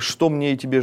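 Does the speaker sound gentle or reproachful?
reproachful. It is said in a reproachful, rebuking tone. The speaker rebukes the listener and refuses to help. The speaker calls it wrong. "вот некий укор ... если бы вот такая интонация"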